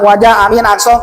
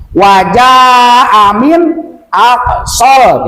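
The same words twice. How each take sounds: First: Wajah amin aksol run together on an even pitch; careless wrong reading. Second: Slow Wajah amin aksol with a long jah; correct measured reading. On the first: Teacher mimics careless readers, wajah amin aksol run together. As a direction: rush through wajah amin aksol without lengthening. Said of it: "Kadang-kadang kemana". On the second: Teacher shows the proper reading, slow with long Wajah. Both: Shown as a demonstration.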